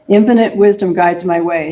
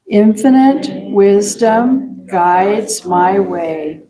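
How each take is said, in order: First: Said in the usual way. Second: Slow, spaced-out affirmation, word by word; very slow reading. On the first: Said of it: "So let's read it very slowly". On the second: Shown as a demonstration. Leader reading an affirmation together with congregation, very slowly. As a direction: read it very slowly so it sinks in. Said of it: "let's read it very slowly".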